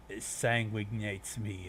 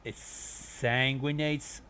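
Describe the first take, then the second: First: "sanguinates" fumbled with an extra g, as sang-wig-nates; stumbled pronunciation. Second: "sanguinates" slowly sounded out as sang-win-ates; careful retry. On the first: Reader tripping on a troubling word, "sanguinates" misread as sang-wig-nates. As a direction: trip over "sanguinates", slipping a g before the n. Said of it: "a troubling word". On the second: Reader retrying a troubling word, "sanguinates" carefully drawn out as sang-win-ates. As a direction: take "sanguinates" slow and careful, without a stray g. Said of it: "trying to pronounce words".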